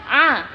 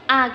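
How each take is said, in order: First: A vowel squeezed from deep in the throat. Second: A plain open vowel with no throat constriction. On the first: The speaker calls it right. "tapi A, ain" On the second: The speaker calls it wrong. "Jangan biasa A gitu aja"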